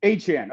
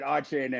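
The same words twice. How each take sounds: First: Achane as "AY-chan"; corrected pronunciation. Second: Achane as "AH-chain"; habitual pronunciation. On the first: Host repeating the name after co-host, Achane as "ay-chan". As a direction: say Achane with a long A and a short "chan". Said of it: "how do we pronounce it?". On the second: Host admitting his usual version, Achane as "ah-chain". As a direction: say Achane with an "ah" start, rhyming the end with "rain". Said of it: "I always pronounce it". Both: Shown as a demonstration.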